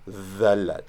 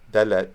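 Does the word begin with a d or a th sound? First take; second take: th; d. First: The word begins with a soft th sound. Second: The word begins with a hard d sound. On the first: "that's a th pronounced with your mouth first in the position for a d" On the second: "think of the letter of D"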